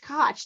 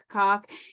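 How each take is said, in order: First: The name rhymes with Scotch. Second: The name rhymes with cock. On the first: The speaker calls it right. "It's Koch, like Scotch" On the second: The speaker calls it wrong.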